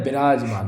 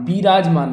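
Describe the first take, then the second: First: Lower, विराजमान with a quick "bi"; short first i. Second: विराजमान opening on a long "bee"; long first i. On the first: Teacher correcting the word, विराजमान with short first vowel. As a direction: say विराजमान as "bi-raajmaan". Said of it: "विराजमान होता है". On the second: Teacher showing the mistake, विराजमान with lengthened first vowel. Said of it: "विराजमान नहीं होता है". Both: Shown as a demonstration.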